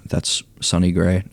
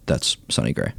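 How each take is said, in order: First: Said in the usual way. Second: "Sonny" said low, falling and stressed; low emphatic repeat. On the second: Real, not acted. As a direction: drop the pitch and lean on "Sonny".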